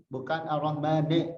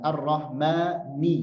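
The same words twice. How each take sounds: First: "Ar-Rahmane" ending in a lax e; wrong e ending. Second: "Ar-Rahmani" slow with a crisp i at the end; clear kasra ni. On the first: Teacher showing the wrong vowel. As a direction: let the end slip to "ne". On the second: Teacher modelling the clear kasra. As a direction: finish on a clean "ni". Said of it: "harokat ni jelaskan". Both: Shown as a demonstration.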